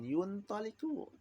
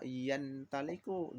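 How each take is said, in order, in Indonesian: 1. Suku kata pertama memiliki vokal 'u'. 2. Suku kata pertama memiliki vokal 'a'. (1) "jangan yuntaliku. Ya nggak boleh" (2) "Intolaqa yantaliku"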